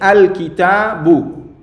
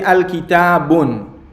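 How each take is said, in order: First: The word ends on a vowel, no final n. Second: The word ends with an added n sound. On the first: The speaker calls it right. "You say al kitabu" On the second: The speaker calls it wrong. "You don't say al kitabun"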